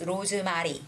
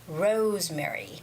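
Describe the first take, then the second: First: It is said with four separate syllables. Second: It is said with three syllables, first stressed. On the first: The speaker calls it wrong. "make it into a four syllable word" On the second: The speaker calls it right. "the stress goes on the first syllable"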